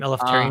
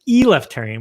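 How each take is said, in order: First: The e sound in the name is short. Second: The e sound in the name is long. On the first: The speaker calls it right. "My last name" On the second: The speaker calls it wrong. "you always slightly mispronounce as Eleftarian with the long e"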